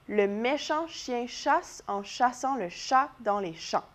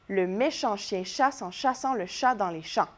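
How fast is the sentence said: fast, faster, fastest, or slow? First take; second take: slow; faster. First: The sentence is said at a slow pace. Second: The sentence is said at a faster pace. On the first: "On l'essaye ensemble cette fois-ci?" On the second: "On va le faire une fois plus vite ensemble"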